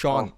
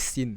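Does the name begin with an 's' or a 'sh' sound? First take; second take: sh; s. First: The name is said as shawn, with sh. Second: The name is said like the word sin. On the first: The speaker calls it right. "That's called" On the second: The speaker calls it wrong. "you don't know how to pronounce the name"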